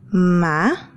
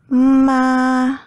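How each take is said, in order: First: The pitch rises from middle to high. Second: The pitch stays high and level throughout. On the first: "The second tone is rising pitch, just like when you are in doubt" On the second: "The first tone is high pitch and even for the entire syllable"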